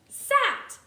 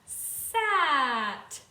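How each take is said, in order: First: The word is said quickly, sounds run together. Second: The word is said slowly, sounds stretched apart. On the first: The whole word can be heard. "let's say it quicker to hear the word" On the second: The separate sounds can be heard. "let's say them together slowly to hear the sounds"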